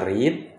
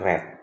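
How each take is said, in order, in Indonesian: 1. Dibaca sebagai bentuk present tense. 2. Dibaca sebagai bentuk past tense. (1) "Kalau present kita baca read" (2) "kalau past tense kita baca read"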